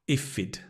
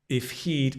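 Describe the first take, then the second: First: It is run together as 'ifid', with no 'h'. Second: Each word is said separately, with the 'h' pronounced.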